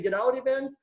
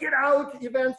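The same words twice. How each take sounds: First: All three words are said at even loudness. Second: The middle word is shouted much louder. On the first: "Do you just say" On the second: "am I supposed to shout in the middle"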